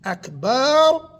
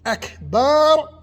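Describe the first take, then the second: First: The vowel before the final r is drawn out. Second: The same.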